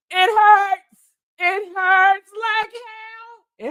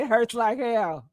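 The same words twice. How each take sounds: First: High, drawn-out comic wailing; mock wail of pain. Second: Said in the usual way. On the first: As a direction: wail it out in hammed-up agony.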